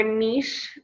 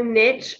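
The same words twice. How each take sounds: First: Niche said as "neesh", rhyming with leash; long ee and soft sh in niche; "neesh" pronunciation. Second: Niche said as "nitch", rhyming with pitch; short i and tch in niche; "nitch" pronunciation. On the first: Coach offering both ways to say it, niche as "neesh". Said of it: "I believe it's properly pronounced niche". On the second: Coach offering both ways to say it, niche as "nitch". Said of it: "whichever one you wanna say it". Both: Shown as a demonstration.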